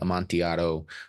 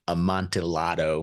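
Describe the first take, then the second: First: It is said with a Spanish-style pronunciation. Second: It is said with a British-style pronunciation.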